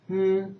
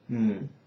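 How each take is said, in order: First: The hum follows the first tone. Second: The hum follows the third tone. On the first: "the first intonation is" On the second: "the third is"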